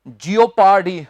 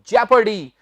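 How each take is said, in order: First: It begins with two syllables, 'jee-oh'. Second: It begins with one short syllable, 'jep'. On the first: The speaker calls it wrong. "Wrong" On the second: The speaker calls it right. "इसका सही उच्चारण है जेपर्डी"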